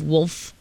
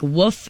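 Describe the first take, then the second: First: The word is said with an L sound. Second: The word is said without an L sound. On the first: This is the standard way of saying it. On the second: This is the local way of saying it.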